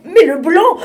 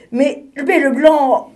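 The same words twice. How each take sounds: First: Higher and louder, exasperated repeat; more annoyed. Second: Stammering, rising irritation; getting annoyed. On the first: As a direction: push the repeat up in frustration. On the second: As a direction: splutter as the penguin loses patience. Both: Acted. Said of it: "qui commençait à s'énerver".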